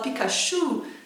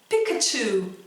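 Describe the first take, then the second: First: The stress is on the last syllable. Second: The stress is on the first syllable. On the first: "A gente coloca a ênfase lá no final" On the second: "Esse pi é onde está a ênfase"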